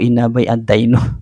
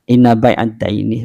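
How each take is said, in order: First: The words end in a and then u. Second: The words end in a and then i. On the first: The speaker calls it wrong. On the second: The speaker calls it right. "Kalau seperti tadi itu inna bai inna bai'ad daini begitu"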